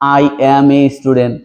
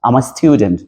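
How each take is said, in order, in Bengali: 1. প্রতিটি শব্দ আলাদাভাবে, পূর্ণভাবে বলা হয়। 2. প্রথম দুটি শব্দ একসাথে মিশে সংক্ষেপে বলা হয়। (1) "এটা কিন্তু আসলে ভালো শোনায় না" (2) "আমার মতো করে যদি বলেন তো দেখবেন যে আপনাকে অনেক সুন্দর লাগছে"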